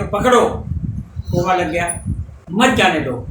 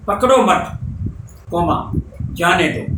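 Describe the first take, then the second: First: "पकड़ो" alone, break, then "मत जाने दो" together; pause after पकड़ो. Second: "पकड़ो मत" as one unit, pause, then "जाने दो"; pause after मत. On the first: Teacher moving the comma to reverse meaning, pause after पकड़ो. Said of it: "पकड़ो के बाद कोमा लगा दे". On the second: Teacher showing how a comma changes meaning, pause after मत. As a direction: break after मत, saying "coma" in the gap. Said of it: "इसको पकड़ो मत और जाने दो". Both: Shown as a demonstration.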